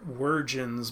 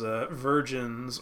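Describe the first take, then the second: First: The word starts with a 'wer' sound. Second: The word starts with a plain 'ver' sound.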